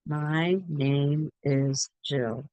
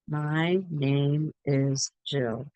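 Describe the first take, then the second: First: Each word is said clearly and separately. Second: The same.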